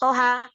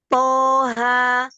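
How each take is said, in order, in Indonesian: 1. Vokalnya ditahan dengan panjang yang berbeda. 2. Vokalnya ditahan dua harakat. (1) "nggak boleh" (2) "itu dua"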